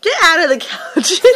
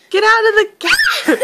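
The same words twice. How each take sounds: First: Laughing. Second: Louder, higher, through laughter; laughing shout. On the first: Parent laughing, teasing. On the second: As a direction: yell it while laughing. Parent louder laughing repeat. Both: Pretend.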